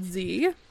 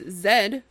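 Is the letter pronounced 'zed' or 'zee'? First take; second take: zee; zed. First: It is said the American way, as 'zee'. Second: It is said the Canadian way, as 'zed'.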